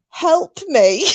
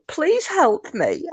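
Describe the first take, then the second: First: High, pleading whine; a put-on whiny plea. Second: High, slow, drawn-out whine; a slow pleading whine; whiny voice. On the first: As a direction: whine for help like a child. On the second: Retold or imitated. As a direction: beg like a sulky child. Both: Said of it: "I'm trying to put a whiny voice on".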